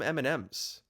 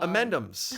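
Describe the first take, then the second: First: The stress falls on the M sounds. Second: The stress falls on the middle 'and' part. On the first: The speaker calls it wrong. "You read it wrong" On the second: The speaker calls it right. "The emphasis is not on any of the M's, but on the and"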